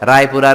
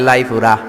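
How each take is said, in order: First: The word begins with an R sound. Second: The word begins with an L sound.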